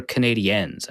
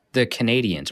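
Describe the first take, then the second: First: "Canadiens" with a French-style ending; French-style pronunciation. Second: "Canadiens" said the English way; English pronunciation. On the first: Host unsure how to say the team name, French-style pronunciation. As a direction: stretch the end of "Canadiens" as "-ee-ENS". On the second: Host asking how the hockey team is pronounced, English pronunciation. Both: Shown as a demonstration. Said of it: "how am I supposed to pronounce that".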